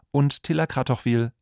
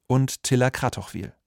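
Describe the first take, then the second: No difference in how they are said.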